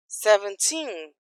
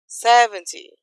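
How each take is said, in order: First: Put-on seventeen with the final TEEN drawn out; "seventeen", long stressed ending. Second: Seventy hit loud on SEV, weak TY; "seventy", strong start fading off; stress on SEV. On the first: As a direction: slowly lean on the last syllable of "seventeen". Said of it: "tem força pra ir até o final". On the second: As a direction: lean on the first syllable of "seventy". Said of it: "a energia acaba no começo". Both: Shown as a demonstration.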